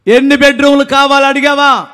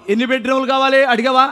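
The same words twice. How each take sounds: First: Raised, insistent preacher's question; ringing challenge to the crowd; emphatic repeat. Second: Said in the usual way. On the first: Real, not acted. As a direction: press the question on the congregation, voice lifted.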